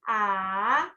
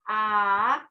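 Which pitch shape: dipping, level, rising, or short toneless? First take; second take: dipping; dipping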